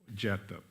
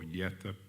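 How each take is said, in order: First: The name begins with a J sound. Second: The name begins with a Y sound. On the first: "Japheth is pronunciation" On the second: "or Yethep, the Hebrew, the Y"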